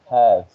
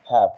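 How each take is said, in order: First: The word ends with a V sound. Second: The word ends with an F sound. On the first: It expresses possession. "the have is have with B" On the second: It is used as a modal of obligation. "have with the F"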